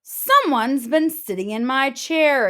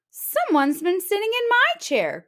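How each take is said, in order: First: Louder exclaiming Papa Bear, a touch higher; father bear finding his chair used. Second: High crying out, stress on my; a higher mother's cry of dismay; Mama Bear crying out over her chair. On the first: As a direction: boom out the outrage. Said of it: "exclaimed Papa Bear". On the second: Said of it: "cried Mama Bear". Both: Acted.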